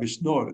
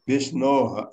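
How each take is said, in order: First: The word ends in an r sound. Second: The word ends in a soft breathy h sound. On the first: "नीचे का र उड़ जाएगा जो भक भ के ऊपर" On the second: "विष्णोः या विष्णोर जैसे कहें"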